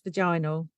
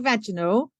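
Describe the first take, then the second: First: It is pronounced the British way. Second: It is pronounced the American way. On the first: "U K says vaginal" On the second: "Americans say vaginal"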